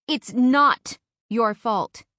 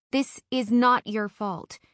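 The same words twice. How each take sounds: First: Slow, louder, not hit hard; firmer insistence. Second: Slow, stress on not; firm reassurance. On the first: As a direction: punch not and slow right down. Friend repeats firmly. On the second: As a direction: lean hard on not. Friend firmly reassures crying Eve. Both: Acted.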